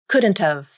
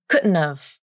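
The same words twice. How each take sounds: First: D is clear and T is fully released. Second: D is a glottal stop, T a nasal flap. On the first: "Then you pronounce the D consonant. No nasal plosion in this pronunciation either. And you pronounce the T like the true T" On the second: "The D consonant turns into a glottal stop, and you omit the T consonant, which means you use a nasal flap"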